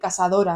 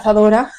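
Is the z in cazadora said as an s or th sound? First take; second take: s; th. First: The z is said as an s sound. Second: The z is said as a th sound. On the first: The speaker calls it wrong. "que sustituye la Z por la S" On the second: The speaker calls it right. "en vez de"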